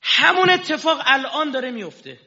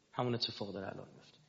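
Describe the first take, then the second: First: High, loud declaration; shouted line. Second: Softer, fast echo; quiet repeat. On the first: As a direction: proclaim it to the hall. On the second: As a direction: drop the voice and repeat quickly. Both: Shown as a demonstration.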